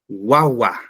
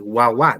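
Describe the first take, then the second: First: The stress is on the first syllable. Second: The stress is on the last syllable. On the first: The speaker calls it right. "el mayor sonido en la penúltima sílaba" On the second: The speaker calls it wrong. "Yo no digo"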